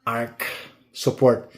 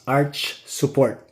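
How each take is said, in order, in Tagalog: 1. Nagtatapos ang unang salita sa tunog na k. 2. Nagtatapos ang unang salita sa tunog na ch. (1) "Arch support is not pronounced as arc support" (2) "It is arch support"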